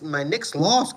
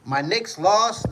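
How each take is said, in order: First: Said in the usual way. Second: "My Knicks lost" said slowly, higher, each word drawn out; slow lament. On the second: Real, not acted. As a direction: drag out "My Knicks lost" in dismay.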